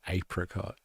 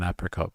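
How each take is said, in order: First: Apricot is said with a British-style pronunciation. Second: Apricot is said with an American-style pronunciation. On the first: "British influenced English pronunciation, it's called an apricot" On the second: "I've never heard of an apricot before"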